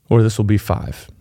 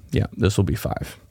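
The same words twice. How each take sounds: First: Said in the usual way. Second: Whispered, much softer, to himself; muttered aside. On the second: Real, not acted. Speaker confirming the tip number to himself, whispered aside. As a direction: confirm it under your breath.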